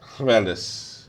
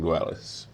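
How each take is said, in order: First: The name is said with a Welsh-style opening sound. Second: The name is said with a plain English L.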